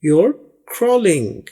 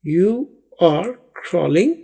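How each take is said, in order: First: It is said quickly and run together. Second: It is said slowly and fully.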